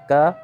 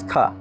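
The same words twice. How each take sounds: First: The k is said without a puff of air. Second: The k is said with a puff of air. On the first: "not to voice it, but also not to aspirate it" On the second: "you breathe it through it"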